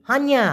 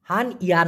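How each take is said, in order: First: হানিয়া run together as han-ya; joined pronunciation. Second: হান ইয়া as two separate pieces; split pronunciation. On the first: Teacher showing the right form, হানিয়া said joined. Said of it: "একসাথে উচ্চারণ করে". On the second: Teacher showing what to avoid, হান ইয়া said split. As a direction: break it into হান, then ইয়া. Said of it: "না হয়ে হবে কি". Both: Shown as a demonstration.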